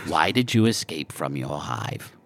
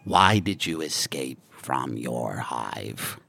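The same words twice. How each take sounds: First: Hushed, unvoiced alien whisper. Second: Deep, slow alien clicking; guttural clicking language. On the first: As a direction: breathe the question out softly. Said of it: "whispered repeat of Scorpo's question". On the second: Acted. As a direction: growl it low and slow. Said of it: "guttural clicking language".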